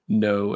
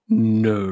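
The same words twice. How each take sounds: First: It is said in a normal voice. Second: It is said in a Snape impression.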